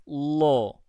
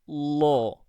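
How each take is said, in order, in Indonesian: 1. L-nya tebal, dengan lidah cekung dan tegang. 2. L-nya tebal, dengan lidah cekung dan tegang.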